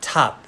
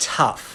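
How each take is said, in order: First: Tough said slowly, the "uh" held. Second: Tough with a short "uh" and a final f; tough, short "uh" vowel, ends in f. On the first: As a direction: hold the "uh" in tough. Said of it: "tough เสียงเออนะครับ". (tough ช้าๆ เสียงเออ) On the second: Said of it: "คำว่าอะไรดีนะ". (คำว่า tough ออกเสียงเออ) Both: Shown as a demonstration.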